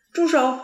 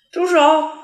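First: Put-on a sharp child's cry of "住手"; a scared little boy yelling "住手"; anxious shout. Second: A much louder, higher scream of "住手"; a panicked child screaming at the nurse; frantic shout. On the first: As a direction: shout "住手" to stop the nurse. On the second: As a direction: yell "住手" with all your might. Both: A narrator's reading. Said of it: "着急地喊".

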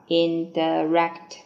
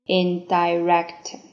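First: "indirect" with "di" reduced to "duh"; second pronunciation. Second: "Indirect" with "di" said like "die"; first pronunciation. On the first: ("indirect"第二种读法，di弱读成schwa) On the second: ("Indirect"第一种读法，di读作“爱”的元音) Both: Shown as a demonstration. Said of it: "第二种读法".

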